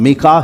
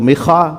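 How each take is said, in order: First: The middle consonant is a plain k sound. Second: The middle consonant is a raspy kh sound. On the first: "इब्रानी में भी इसका नाम मिका ही है" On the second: "वो काफ को ख भी पढ़ते हैं तो मिखा"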